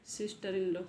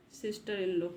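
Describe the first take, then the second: No difference in how they are said.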